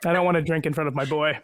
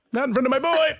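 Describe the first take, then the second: First: Said in the usual way. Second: High-pitched playful cooing protest; mock protest. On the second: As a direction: squeal it in a put-on, much higher voice. Playful exaggerated repeat about the boy.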